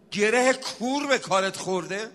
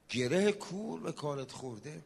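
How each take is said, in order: First: Rhetorical question in full preaching voice; rousing preacher's question. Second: Soft, lower-pitched preacher's question; hushed refrain. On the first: Preacher asking troubled listeners about their problems, rousing appeal. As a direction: put it to the crowd, projected. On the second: Preacher returning to the question after a verse, hushed. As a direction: drop right down and ask it gently. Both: Real, not acted.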